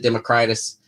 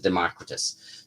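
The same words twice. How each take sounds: First: Democritus as dem-uh-CRY-tus; first guide's pronunciation. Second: Democritus as de-MOCK-ri-tus; second guide's pronunciation. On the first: Writer reporting the first online guide, Democritus as dem-uh-CRY-tus. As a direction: say Democritus with stressed "cry" in the third syllable. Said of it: "one pronounced it Democritus". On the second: Writer reporting the other online guide, Democritus as de-MOCK-ri-tus. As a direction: stress the second syllable of Democritus, short "o" as in mock. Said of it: "and one pronounced it Democritus". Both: Shown as a demonstration.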